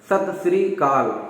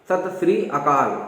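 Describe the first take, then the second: First: The last word is said as 'kaal', no initial vowel. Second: The last word is said as 'akaal', with initial vowel. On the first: The speaker calls it wrong. "कहते हैं सत श्री काल, ऐसा जो भी सुन में आता है" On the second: The speaker calls it right. "सही उच्चारण"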